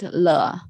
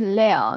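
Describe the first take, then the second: First: The syllable ends without an L sound. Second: The syllable ends with a clear L sound. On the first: The speaker calls it wrong. "not le" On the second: The speaker calls it right. "pay attention to lel"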